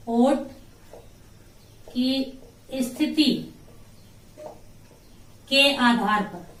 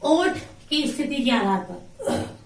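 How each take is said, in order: First: Word groups parted by long pauses; drawn-out, piece-by-piece dictation; slow dictation. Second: Said in the usual way. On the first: Shown as a demonstration. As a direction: dictate slowly as if writing along. Dictates phrase while writing it.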